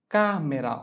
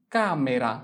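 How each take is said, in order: Both takes have the same delivery.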